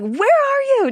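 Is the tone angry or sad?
angry. It is yelled like an angry, strict dad.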